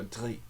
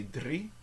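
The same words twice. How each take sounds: First: Drie with the R made in the back of the throat. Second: Drie with the R rolled on the tongue tip. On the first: Teacher offers the other option, throat R. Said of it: "in the back of the throat". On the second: Teacher shows the first option, rolled R. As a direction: roll the R in drie. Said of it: "and roll your R". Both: Shown as a demonstration.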